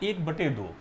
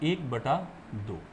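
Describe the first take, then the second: First: The middle word ends in an 'e' sound. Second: The middle word ends in an 'a' sound. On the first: The speaker calls it wrong. "तो बच्चों गलत है" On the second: The speaker calls it right. "सही रूप से बोलना है एक बटा दो"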